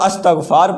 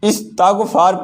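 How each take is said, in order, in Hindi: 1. शब्द 'ast' से शुरू होता है, 'st' के बाद कोई स्वर नहीं है। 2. शब्द 'ist' से शुरू होता है, 'st' के बाद कोई स्वर नहीं है। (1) "बहुत सारे लोग इसको अस्तग़फ़ार पढ़ते हैं, ये लफ्ज़ अस्तग़फ़ार नहीं है" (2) "ये लफ्ज़ इस्तग़फ़ार भी नहीं है"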